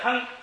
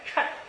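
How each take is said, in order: First: The syllable is pronounced cheng, with a nasal eng ending. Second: The syllable is pronounced chen, with a nasal en ending. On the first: It means to weigh or a name. "一个是提的称东西那个称，哎，名称的称" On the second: It means to match or suit. "它还有一个叫衬，就是相衬不相衬"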